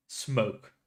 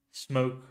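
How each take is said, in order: Both takes have the same delivery.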